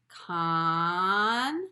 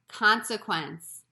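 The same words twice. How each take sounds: First: The word is said slowly, stretched out. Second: The word is said quickly.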